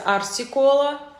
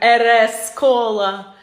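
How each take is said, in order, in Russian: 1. Буквы читаются как английские названия букв. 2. Буквы читаются как русские названия букв.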